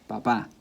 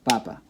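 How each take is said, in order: First: The stress is on the last syllable. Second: The stress is on the first syllable. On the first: It means dad. "the pronunciation is on the last" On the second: It means potato. "which is a potato"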